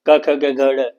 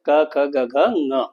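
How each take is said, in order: First: The last letter is said as a d-sound. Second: The last letter is said as a nasal sound. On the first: The speaker calls it wrong. "हम लोग क्या करते हैं, अक्सर ड बोलते हैं" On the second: The speaker calls it right. "इसको ङ बोला जाता है"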